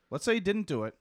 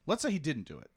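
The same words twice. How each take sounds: First: Louder and higher, insisting; emphatic restatement. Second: Said in the usual way. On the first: Real, not acted. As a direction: repeat it with force to correct yourself.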